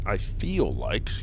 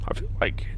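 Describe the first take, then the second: First: Said in the usual way. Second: Voice crack. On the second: Real, not acted. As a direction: voice cracking up high. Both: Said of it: "wow, voice crack or something".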